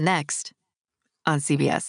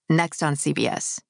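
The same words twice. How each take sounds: First: There is a short pause after 'next'. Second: 'Next' runs straight on with no pause. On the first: The speaker calls it wrong. "Don't do the next on CBS" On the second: The speaker calls it right. "They want it next on CBS"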